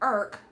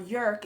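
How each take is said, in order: First: The name begins with a vowel sound. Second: The name begins with a y sound. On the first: The speaker calls it wrong. "I've probably been pronouncing it wrong this whole time" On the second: The speaker calls it right. "is what I've heard them say it as"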